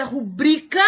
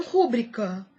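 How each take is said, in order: First: "rubrica" stressed ru-BRI-ca; correct stress. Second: "rúbrica" stressed RÚ-bri-ca; wrong stress. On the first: Teacher giving the correct form, stress on BRI. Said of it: "O certo é". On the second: Teacher warning against an error, stress on RÚ. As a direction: hit RÚ in "rúbrica". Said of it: "e não". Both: Shown as a demonstration.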